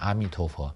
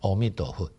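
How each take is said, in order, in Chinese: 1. 这是用标准普通话的读音来念的。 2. 这是用闽南语的读音来念的。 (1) "那他就不是念阿弥陀佛" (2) "用闽南语的发音来念"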